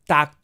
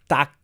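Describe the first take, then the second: First: The final consonant is voiceless, like a k. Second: The final consonant is voiceless, like a k.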